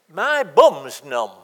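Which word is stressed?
bum's. The stress falls on the word bum's. It is this body part, not another, that is numb. The speaker calls it wrong. "implying that there could have been some other part that could be numb"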